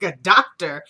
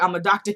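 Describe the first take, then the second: First: Louder, incredulous echo; mock disbelief. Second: Said in the usual way. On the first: [name] doubting Randall is a doctor, mock disbelief. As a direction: throw DOCTOR back as a scoffing question.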